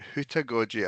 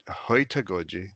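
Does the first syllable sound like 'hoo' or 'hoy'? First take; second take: hoo; hoy. First: The first syllable sounds like 'hoo'. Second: The first syllable sounds like 'hoy'. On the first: This is the speaker's own pronunciation. "as in owl based. If you think of owls, uh, like hooting" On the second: This is another person's pronunciation. "I think she calls it"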